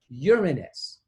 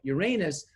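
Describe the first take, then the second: First: It uses the Latin pronunciation. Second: It uses the common English pronunciation. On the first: "They would say Uranus" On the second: "they say it like Uranus, which is an accepted pronunciation, but that is not Latin"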